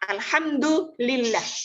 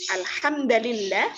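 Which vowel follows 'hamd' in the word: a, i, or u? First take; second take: u; a. First: The vowel after hamd is u. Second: The vowel after hamd is a. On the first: "alhamdu itu dibaca rofa" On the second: "Jadi dibaca nasab"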